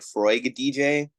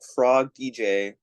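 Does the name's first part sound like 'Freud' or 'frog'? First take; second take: Freud; frog. First: The first part sounds like the name Freud. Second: The first part sounds like the word frog. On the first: The speaker calls it right. "I think it should be like Freud" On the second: The speaker calls it wrong. "I pronounced it like Frog"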